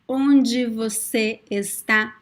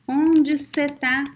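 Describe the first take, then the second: First: Every word is said in full. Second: The last two words are shortened.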